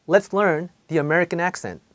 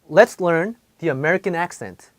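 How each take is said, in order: Both takes have the same delivery.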